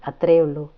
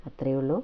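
First: "അത്രയേ" said louder, closing with a falling tune; flat final statement. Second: "ഉള്ളൂ" rising into a question; doubting echo. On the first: Brother insists to his sister, "അത്രയേ ഉള്ളൂ" with a firm fall. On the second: Sister doubts her brother's answer, "ഉള്ളൂ" rising. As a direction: echo back "അത്രയേ ഉള്ളൂ" with a rise on "ഉള്ളൂ". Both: A narrator's reading.

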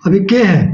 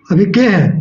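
Both takes have the same delivery.

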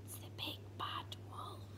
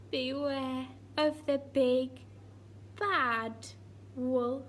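First: Frightened breathy whisper. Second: Said in the usual way. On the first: Acted. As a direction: whisper it in dread. Frightened whisper, contrasts next line.

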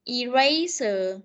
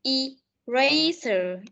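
First: Eraser said very slowly with an ay sound, i-RAY-ser; slow model again. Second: Eraser drawn out very slowly, stressing the first sound; teacher stretches Eraser so pupils hear its opening; slow clear model. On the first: Teacher repeats Eraser slowly for the pupils. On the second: Teacher drills first sound of Eraser slowly. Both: Shown as a demonstration. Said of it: "cái âm đầu hai bạn chú ý này".

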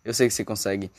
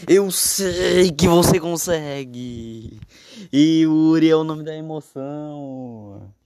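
First: Said in the usual way. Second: Higher, louder, slow hype call; explosive goal commentary. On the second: Acted. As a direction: cheer him on like a TV narrator. (narração empolgada de torcida)

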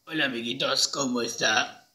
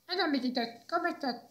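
First: Trial character voice. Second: Tiny, high, soft squeak; mouse-like voice. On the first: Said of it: "podría ser una voz así". (voz grave y lenta de personaje) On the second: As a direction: greet them like a little mouse. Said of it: "Parece un ratón". (vocecita aguda de ratón) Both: Shown as a demonstration.

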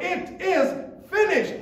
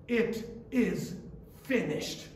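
First: "finished" cried out high and loud in victory; triumphant cry. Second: "It is ... finished" said softly, with a pause before "finished"; quiet. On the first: Retold or imitated. Christ crying out his victory from the cross. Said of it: "shouted with a loud cry". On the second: Acted. Preacher echoing the cry softly to the congregation.

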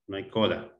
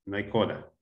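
No difference in how they are said.

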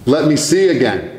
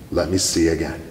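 First: Pleading cry. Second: Said in the usual way. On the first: Retold or imitated. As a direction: cry it out as an urgent plea. Plea repeated, crying out.

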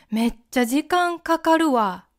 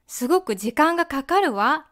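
First: かかるわ with the わ dropping down; casual Kansai-style falling わ. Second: かかるわ ending on a rising わ; rising feminine wa. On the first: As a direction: drop the final わ, offhand. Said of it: "下げます". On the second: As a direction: lift the final わ up, ladylike. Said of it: "女の人らしい和のアクセントは上がります". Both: Shown as a demonstration.

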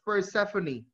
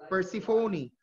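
First: Persephone said per-SEF-uh-nee; alternative pronunciation. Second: Persephone said per-si-FOH-nee, long O; pronunciation per-si-FO-nee. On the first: Teacher shows how others say it, Persephone as per-SEF-uh-nee. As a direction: stress SEF in Persephone, short e. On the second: Teacher gives the name of Hades' wife, Persephone as per-si-FOH-nee. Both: Shown as a demonstration. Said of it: "Sometimes people would pronounce it as".

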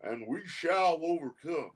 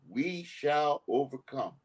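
First: Put-on Southern accent. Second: Slow solemn presidential quote; lightly voiced Lyndon Johnson, slow and grave; a hint of a Southern president, slowed; quoting the president. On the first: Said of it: "in a Southern accent say". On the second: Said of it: "the President of the United States say".

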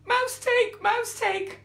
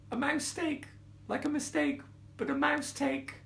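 First: Very high, loud, incredulous cry; outraged lioness. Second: High little mouse voice; explaining mouse. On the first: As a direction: shriek it back in outrage. Lioness outraged at the mouse's word. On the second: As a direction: explain timidly in a small high voice. Mouse nervously explains its pun. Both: A narrator's reading.

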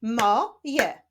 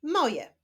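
First: "Mo, je" with a clear gap between syllables. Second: Said in the usual way. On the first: Shown as a demonstration. Teacher continuing the reading practice, "Mo, je" split apart. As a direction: break it up: "Mo", pause, "je". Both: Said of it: "Ćwiczmy dalej".

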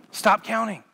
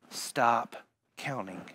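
First: Firm preacher's command; firm stop counting. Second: Low, soft hushed start; quiet low aside; soft stop counting. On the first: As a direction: stress on "Stop", punched clearly. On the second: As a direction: say it gently under the breath. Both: Shown as a demonstration.

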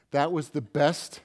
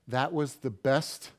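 The two takes are said the same way.

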